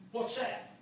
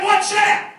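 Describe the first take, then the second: First: Very soft question; quietly puzzled. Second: High, loud preacher's emphasis; raised, astonished re-telling; incredulous repeat. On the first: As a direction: ask it under your voice, puzzled. First telling of puzzled question. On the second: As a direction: punch the question out high for the crowd. Question repeated for effect. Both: Retold or imitated.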